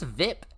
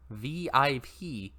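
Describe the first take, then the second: First: It is said as one word rhyming with zip. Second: It is said as three separate letters.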